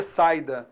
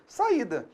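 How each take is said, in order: First: Saída read as two syllables, sai-da; wrong reading. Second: Saída with a stressed separate i, sa-Í-da; correct reading. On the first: Teacher showing how students must not read saída. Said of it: "você não vai ler". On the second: Teacher showing students the right reading of saída. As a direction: stress the i in saída, three syllables. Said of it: "você vai ler". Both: Shown as a demonstration.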